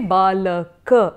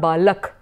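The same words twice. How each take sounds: First: The word ends with a full final vowel. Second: The word ends on a bare consonant. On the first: The speaker calls it right. "say balak" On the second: The speaker calls it wrong. "and not balak"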